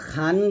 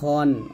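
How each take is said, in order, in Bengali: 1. খ-এর পরের স্বরধ্বনিটি 'a' এর মতো শোনায়। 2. খ-এর পরের স্বরধ্বনিটি 'o' এর মতো শোনায়। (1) "খান বলবেন না" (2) "বলতে হবে খন, খ বলতে হবে মোটা করে"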